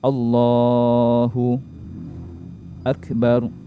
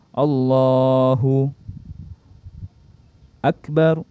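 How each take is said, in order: First: A short pause separates the two words. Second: A long pause separates the two words. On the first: "contoh adalah yang berhenti yang sebentar" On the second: "berhentinya lebih-lebih lagi kalau lama"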